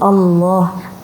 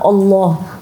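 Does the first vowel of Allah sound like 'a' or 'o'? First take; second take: a; o. First: The first vowel is an open 'a' sound. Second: The first vowel is rounded toward an 'o' sound. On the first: The speaker calls it right. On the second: The speaker calls it wrong.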